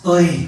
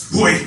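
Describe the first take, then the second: First: "Oy" said as if calling someone beautiful; admiring exclamation. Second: "Hoy" as a short warning call; sharp call to look out. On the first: Explaining a Philippine expression, "Oy" as admiration. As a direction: admire with a single "Oy". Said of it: "which means beautiful". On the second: Explaining a Philippine expression, "Hoy" as a warning. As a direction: say "Hoy" to make someone look out. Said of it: "depending on how you enunciate". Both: Shown as a demonstration.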